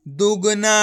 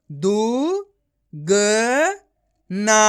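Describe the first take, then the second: First: दुगना joined into one word; blended word. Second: दु, ग, ना with long gaps between; each syllable of दु, ग, ना said alone. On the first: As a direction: run दु, ग, ना together as दुगना. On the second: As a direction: sound out दु... ग... ना. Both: Shown as a demonstration. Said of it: "direct मात्रा का उच्चारण करके".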